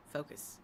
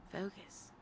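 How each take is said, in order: First: Softer self-reminder; self-urging mutter. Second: A hushed, unvoiced reminder; whispered self-reminder. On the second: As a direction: whisper it to yourself. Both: Real, not acted.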